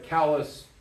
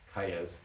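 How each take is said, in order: First: The name is said with English sounds. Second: The name is said with Spanish sounds. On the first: The speaker calls it wrong. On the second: The speaker calls it right.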